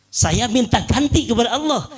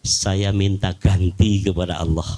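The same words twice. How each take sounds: First: Higher, stressed on ganti; raised, insistent second take; emphatic repeat. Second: Said in the usual way. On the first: Retold or imitated. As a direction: repeat it with conviction. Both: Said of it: "Dia bilang".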